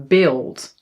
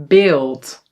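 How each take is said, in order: The two takes are said the same way.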